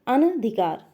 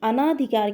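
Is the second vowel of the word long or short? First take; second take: short; long. First: The second vowel is short, with no long aa. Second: The second vowel is a long aa sound. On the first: The speaker calls it right. "शुद्ध शब्द क्या है, अनधिकार" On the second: The speaker calls it wrong. "जिसपे आ की मात्रा ... गलत है"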